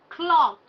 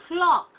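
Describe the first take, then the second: No difference in how they are said.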